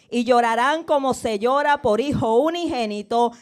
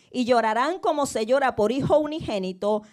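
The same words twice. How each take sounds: The two takes are said the same way.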